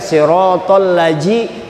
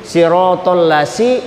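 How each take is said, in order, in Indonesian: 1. Bunyinya 'j' seperti pada 'jam'. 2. Bunyinya 's' seperti pada 'sun'. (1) "Jangan kena dibaca siratal laji, itu huruf jim" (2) "itu huruf sin"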